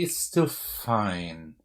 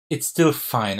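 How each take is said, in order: First: Slow, quiet, drawn-out musing; softly dragged reassurance to self. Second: Said in the usual way. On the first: Real, not acted. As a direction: stretch it out while thinking it over. Reconsidering the move aloud.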